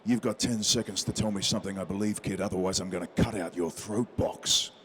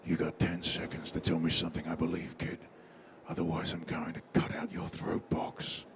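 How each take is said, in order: First: Menacing line read. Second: Low, hushed threat breathed close to the ear; low whispered menace, dead calm; calm menacing whisper. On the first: Shown as a demonstration. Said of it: "and says". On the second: Acted. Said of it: "whispered in, into your ear so calmly".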